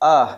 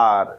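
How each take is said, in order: First: The letter name ends without any r sound. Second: The letter name ends with an r sound. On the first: The speaker calls it right. "এখানে র সাউন্ডটা নেই" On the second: The speaker calls it wrong. "আমরা বলি আর"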